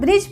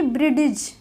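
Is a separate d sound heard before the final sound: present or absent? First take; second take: absent; present. First: No separate d sound is heard. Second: A separate d sound is heard. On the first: The speaker calls it right. "ब्रिज पढ़ते हैं" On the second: The speaker calls it wrong. "न कि ब्रिडिज"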